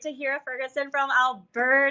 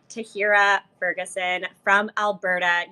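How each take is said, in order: First: It is said quickly and excitedly. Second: It is said more slowly and calmly.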